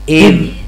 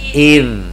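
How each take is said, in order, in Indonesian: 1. D terakhir berakhir dengan gema memantul. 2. D terakhir berhenti bersih tanpa gema. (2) "coba lihat ngeliat ke saya"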